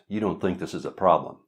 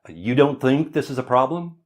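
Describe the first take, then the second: First: The voice falls at the end, like a statement. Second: The voice rises at the end, like a question.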